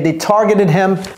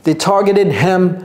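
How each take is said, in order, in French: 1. Le h au début de him est prononcé. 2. Le h au début de him est prononcé.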